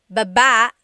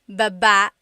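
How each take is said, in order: Both takes have the same delivery.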